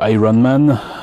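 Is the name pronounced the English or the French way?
English. The name is said with English pronunciation. This is the original English way. "plutôt que"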